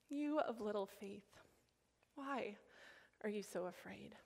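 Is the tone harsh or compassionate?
compassionate. It is said in a gentle, compassionate tone.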